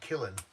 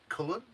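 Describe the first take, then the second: First: The first vowel sounds like the vowel in 'kill'. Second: The first vowel sounds like the vowel in 'cull'. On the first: This is how outsiders say it. "So we'd say Killen" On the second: This is how locals say it. "But they call it like Cullen"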